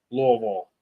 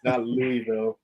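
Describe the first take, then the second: First: Louisville as a slurred two-syllable Lovl; Louisville mumbled like a full mouth, Lovl; mushy local pronunciation. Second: Louisville said fully as Loo-ee-ville; Louisville pronounced crisply with every syllable; spelled-out pronunciation. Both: Shown as a demonstration. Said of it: "say it like you have something in your mouth".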